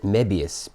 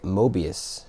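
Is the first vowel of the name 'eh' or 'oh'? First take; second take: eh; oh. First: The first vowel sounds like 'eh'. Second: The first vowel sounds like 'oh'. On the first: "Or is it Mebius?" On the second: "I've always pronounced this word as Mobius"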